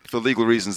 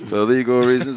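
First: Said in the usual way. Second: Louder, mock-official disclaimer voice; mock legal disclaimer. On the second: Shown as a demonstration. Host jokes to cohosts in a mock-official disclaimer voice. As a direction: read it like a lawyer's formal warning. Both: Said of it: "this is a joke".

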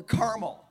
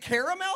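First: "caramel" as CAR-mel; two syllables. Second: "caramel" as CARE-a-mel; three syllables. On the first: Pastor polling the room: CAR-mel. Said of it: "or caramel". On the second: Pastor polling the room: CARE-a-mel. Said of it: "is it caramel". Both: Shown as a demonstration.

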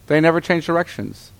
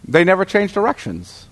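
No difference in how they are said.

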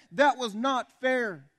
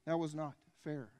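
First: High, loud, slow declaration; loud rant. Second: Said in the usual way. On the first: Real, not acted. Preacher on Jesus dying for others' sins, loud rant. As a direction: hammer out each word from the pulpit. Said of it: "my rather loud rant".

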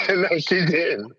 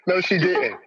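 First: Each word stretched and dragged; slow drawn-out "No, she didn't". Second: Laughing mock disbelief. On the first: Retold or imitated. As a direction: draw out "No, she didn't" slowly. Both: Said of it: "I was like".

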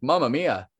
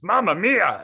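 First: Said in the usual way. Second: High, loud cartoon Italian "Mamma mia"; Italian character voice. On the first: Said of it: "I think he said". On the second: Voicing his spaghetti plate character, high cartoon Italian voice. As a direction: ham it up like a spaghetti man. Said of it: "I'm doing it in a character voice".

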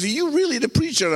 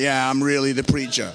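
First: Higher, quick incredulous question; young guy. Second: Much lower, deep comic confirmation; mock self-assured. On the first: Retold or imitated. Young guy questioning the man from the cupboard, disbelieving. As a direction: imitate a doubtful young man, pitched up. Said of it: "this young guy looks at me". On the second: Preacher answering the doubtful young guy, mock-cool confidence.

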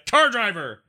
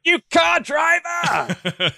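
First: Mock insult. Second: High, slow, stretched-out mock yell at a driver; mock road rage insult. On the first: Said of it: "It's a hyphenated word". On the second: Mocking a bad driver, high stretched mock yell. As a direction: sneer it like a furious driver.

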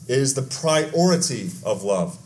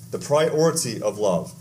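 First: Slow, leaning on "priority"; "priority" drawn out and weighted; stress on priority. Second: Lower, slow echo stressing "priority"; "priority" said again, lower and deliberate; repeated slower. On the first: Pastor to congregation, slowly stressing "priority". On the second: Pastor repeating the point to church, slow and low. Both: Shown as a demonstration.

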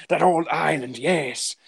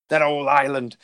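First: Lightly voiced pirate drawl on "That old island"; a hint of a pirate. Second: Said in the usual way. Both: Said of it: "Now I'm a pirate suddenly".

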